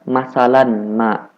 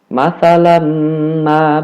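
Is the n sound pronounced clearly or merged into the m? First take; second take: clear; merged. First: The n is pronounced clearly before the m. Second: The n merges into a doubled, nasalized m sound.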